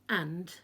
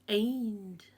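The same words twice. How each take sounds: First: The vowel sounds plain and ordinary. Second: The vowel sounds twisted and distorted. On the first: "instead of saying and" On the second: "they say and"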